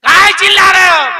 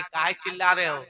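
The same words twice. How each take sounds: First: काहे चिल्ला रहे हो shouted high and loud; old woman shouts काहे चिल्ला रहे हो at full force; mock angry shout. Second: Said in the usual way. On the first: Shown as a demonstration. Mother-in-law shouting काहे चिल्ला रहे हो at her son. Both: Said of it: "setting देखिए".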